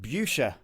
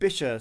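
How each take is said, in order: First: The first syllable sounds like 'bush'. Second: The first syllable sounds like 'bish'. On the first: The speaker calls it wrong. "I was pronouncing it Busha because of the U in the spelling" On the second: The speaker calls it right. "It's pronounced Bisha"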